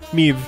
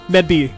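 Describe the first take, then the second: First: The name is said like 'maeve', with no 'd'. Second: The name is sounded out with a 'd' and 'b'. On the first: The speaker calls it right. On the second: The speaker calls it wrong.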